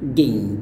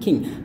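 First: The syllable begins with a voiced G sound. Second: The syllable begins with a voiceless K sound. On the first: The speaker calls it right. "ini nggak boleh lupa bunyi G-nya ya" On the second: The speaker calls it wrong. "bukan king"

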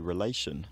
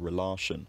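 First: The stressed vowel has the English long sound. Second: The stressed vowel has a Romance-language sound. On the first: "We say relation" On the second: "not relation"

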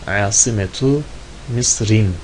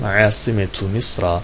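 First: The last word ends with an -in sound. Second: The last word ends with a plain -a sound. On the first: The word is treated as a fully declinable noun. "Şimdilik ben bunu munsarif olarak kullanıyorum" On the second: The word is treated as a diptote noun. "Gayrimunsarif diyelim"

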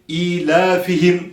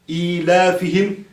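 No difference in how they are said.

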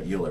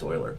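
First: The name is said with an American pronunciation. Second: The name is said with its German pronunciation. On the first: The speaker calls it wrong. "as an American, I want to pronounce that Euler" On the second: The speaker calls it right. "it's actually pronounced Euler"

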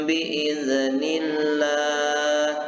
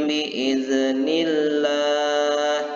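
Both takes have the same delivery.

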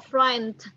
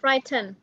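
First: One sound in the word is swallowed. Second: Every sound in the word is fully pronounced. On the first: "nó lại nuốt cái âm này đi. Đó là frightened" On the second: "nếu mà nó không phải là tính từ thì mình gọi là frightened"

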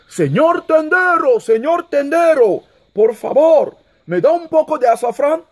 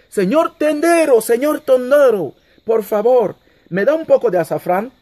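First: It is shouted at full volume. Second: It is said somewhat louder than normal speech. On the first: The speaker is making a last effort to be heard. "se puso de puntilla y gritó" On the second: The speaker is trying again to be heard. "volvió a decir un poco más alto"

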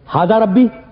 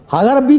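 First: It is said as a flat statement. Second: It is said as a question.

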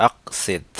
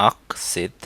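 Both takes have the same delivery.

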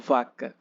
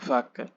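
No difference in how they are said.

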